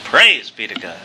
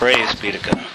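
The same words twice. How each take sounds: First: It is said in a put-on preacher voice. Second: It is said in the speaker's ordinary voice.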